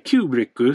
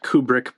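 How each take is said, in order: First: The word is said in Japanese style. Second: The word is said in plain English style. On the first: "in Japanese they say Kubrikku" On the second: "Some people might pronounce it Kubrick"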